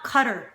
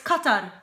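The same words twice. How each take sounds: First: It is pronounced in an Americanized way. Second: It is pronounced closer to the native Arabic form. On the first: The speaker calls it wrong. "not Qatar" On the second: The speaker calls it right. "It's Qatar"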